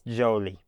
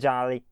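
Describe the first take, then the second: First: The first syllable sounds like 'joe'. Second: The first syllable sounds like 'jah'. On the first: The speaker calls it right. "it's Jolie. That's probably a, a little bit better" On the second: The speaker calls it wrong. "it's not Jolly"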